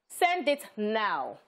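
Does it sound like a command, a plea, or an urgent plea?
command. It sounds like a firm command.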